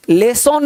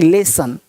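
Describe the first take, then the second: First: लेसन with a full 'on' ending, 'lay-sonn'; wrong pronunciation. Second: लेसन with a weak 'sun' ending, lower, falling; correct pronunciation. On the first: Teacher showing students the mistake, wrong pronunciation. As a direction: give लेसन a rounded O in the second syllable. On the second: Teacher correcting the second vowel, correct pronunciation. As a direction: say लेसन as 'lay-sun'. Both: Shown as a demonstration. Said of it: "लेसन नहीं".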